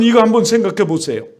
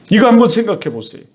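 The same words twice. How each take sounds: First: Said in the usual way. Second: Said again quickly, pressing the point; fast urging repeat. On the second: Shown as a demonstration. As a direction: rush the repeat to drive it home.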